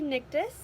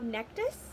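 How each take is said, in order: First: The first vowel sounds like 'nick'. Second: The first vowel sounds like 'neck'. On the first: The speaker calls it right. "is actually Nictus" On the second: The speaker calls it wrong. "just like how Nectus"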